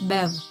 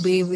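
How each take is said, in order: First: The vowel is a short 'eh' sound. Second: The vowel is a long 'ay' sound. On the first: The speaker calls it right. "it's Bev ... It's B E V" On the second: The speaker calls it wrong. "It's not Bev, ... My name is not B A V E"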